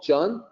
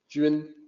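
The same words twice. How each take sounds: First: It is read with plain English vowel sounds. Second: It is said with a Mandarin-like vowel sound. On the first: The speaker calls it wrong. "a native English speaker might say" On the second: The speaker calls it right. "closer to the actual sound in Mandarin"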